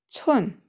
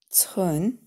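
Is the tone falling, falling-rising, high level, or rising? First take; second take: falling; rising. First: The pitch falls sharply from high. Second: The pitch rises from mid to high. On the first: "четвертый тон" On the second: "второй тон"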